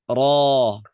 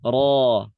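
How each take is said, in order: No difference in how they are said.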